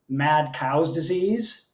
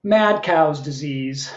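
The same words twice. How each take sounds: First: "Mad Cow's Disease" slow, rising at the end; questioning title. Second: Slow title announcement. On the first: Poet questioning the title's taste, slow rising question. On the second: Poet announcing the opening poem's title, slow and final. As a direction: announce MAD COW'S DISEASE slowly as a title. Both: Acted.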